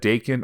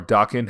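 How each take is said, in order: First: "Daken" spoken as DAY-ken; first pronunciation. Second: "Daken" spoken as DAH-ken; alternative pronunciation. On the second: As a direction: use AH, not AY, in the first syllable of "Daken". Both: Shown as a demonstration. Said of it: "however you want to pronounce it".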